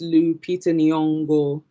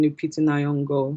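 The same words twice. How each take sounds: First: Every vowel is said fully and carefully. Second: The vowels are rushed and reduced. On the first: The speaker calls it right. "taking the time to really say those vowels" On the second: The speaker calls it wrong. "rather than"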